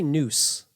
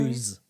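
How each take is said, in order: First: The word sounds like 'noose'. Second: The word sounds like 'news'. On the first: This is how the other person says it. The speaker calls it wrong. "Because you say noose" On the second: This is how the speaker says it. The speaker calls it right.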